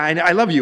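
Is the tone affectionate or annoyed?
annoyed. It is said curtly and with irritation. The speaker is saying it only to be done with it. "yeah, I love you, I've said it, okay, what do you want now?"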